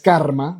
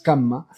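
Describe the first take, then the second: First: The word is said with an R sound. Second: The word is said without an R sound. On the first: The speaker calls it wrong. "Ni siquiera es karma, no es con la R" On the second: The speaker calls it right. "la pronunciación en sánscrito es kamma"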